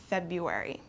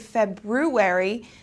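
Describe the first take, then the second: First: The first R sound is dropped. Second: The first R sound is clearly pronounced. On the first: The speaker calls it right. "This R kind of goes away and we pronounce it February" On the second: The speaker calls it wrong. "We don't say February"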